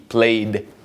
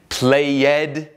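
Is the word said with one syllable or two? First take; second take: one; two. First: The word is said as one syllable. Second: The word is said as two syllables. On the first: The speaker calls it right. "E não uma sílaba extra" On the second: The speaker calls it wrong. "nem played"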